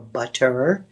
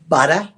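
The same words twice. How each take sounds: First: The final R sound is pronounced. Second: The final R sound is dropped.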